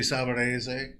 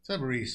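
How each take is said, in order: First: The name ends with a pronounced final E sound. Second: The name ends without a final E sound. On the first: This is the original Italian form. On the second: This is how the family says it now. "You don't need to pronounce that last E"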